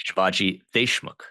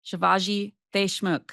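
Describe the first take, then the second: First: Shivaji Deshmukh said carefully, the "Desh" with a clear sh sound; correct pronunciation. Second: Slow careful Shivaji Deshmukh, copying the "Desh" with sh; careful repeat. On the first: Guest teaches host his name, careful correct pronunciation. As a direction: guest shows how Deshmukh is said, sh not th. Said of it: "correct my pronunciation". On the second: Host repeats guest's name, slow careful imitation. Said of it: "you got it now". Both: Shown as a demonstration.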